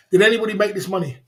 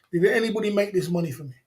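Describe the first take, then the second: First: Hard, fast challenge to the chat; tough mod demo. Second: Said in the usual way. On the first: Shown as a demonstration. Streamer showing mods how to stand firm, fast and defiant. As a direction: demand it like a strong mod. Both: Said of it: "My mods are gonna be like this".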